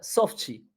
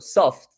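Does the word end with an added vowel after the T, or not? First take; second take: yes; no. First: An extra vowel sound follows the final T. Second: The word ends on the T with no added vowel.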